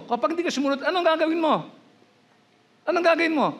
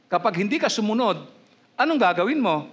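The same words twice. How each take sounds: First: Much higher, pressing challenge on gagawin; pressing repeat. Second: Said in the usual way. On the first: Real, not acted. Preacher repeats his question to the congregation, insistent and high. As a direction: push the question hard, climbing high on gagawin. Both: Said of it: "Oh, tanong ko".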